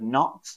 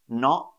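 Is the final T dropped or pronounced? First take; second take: pronounced; dropped. First: The final T is clearly pronounced. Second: The final T is dropped to a glottal catch. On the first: "instead of" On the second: "I would probably say things like not"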